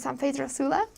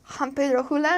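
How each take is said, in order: First: The s sound is pronounced as a clear s. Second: The s sound is softened to an h sound.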